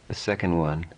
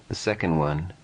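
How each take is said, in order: The two takes are said the same way.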